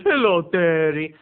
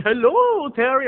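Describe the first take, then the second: First: Slow, loud, cold hello; drawn-out hostile hello; mean greeting. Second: High, loud, sing-out hello; over-the-top happy hello; excited greeting. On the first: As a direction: imitate a glaring aunt's unfriendly greeting. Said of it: "she just gave me this mean look". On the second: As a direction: imitate the aunt's delighted greeting. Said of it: "usually she's so excited to see me". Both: Retold or imitated.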